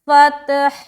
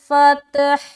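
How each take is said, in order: First: The word ends with an audible final h sound. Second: The word ends with an audible final h sound.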